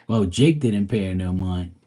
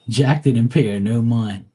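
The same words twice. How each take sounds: First: Said in the usual way. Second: Laughing through the wrong name; laughing slip. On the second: Real, not acted. Vlogger correcting herself, laughing at the slip. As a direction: trip over "Jack" with a laugh.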